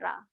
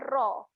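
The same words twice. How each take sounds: First: A thin r with an open a vowel. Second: A thick r with an o-like vowel. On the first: The speaker calls it wrong. "bukan ra" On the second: The speaker calls it right. "Bunyi dia ra"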